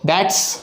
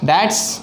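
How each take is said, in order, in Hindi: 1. शब्द घिसकर एक-दूसरे में मिला दिए जाते हैं। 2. शब्द घिसकर एक-दूसरे में मिला दिए जाते हैं।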